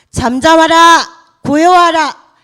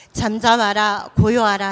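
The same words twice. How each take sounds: First: Slow, booming, much louder command; calm the sea with a loud slow decree; commanding rebuke. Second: Said in the usual way. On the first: Acted. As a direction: order the storm to be still. Jesus rebuking the storm, retold.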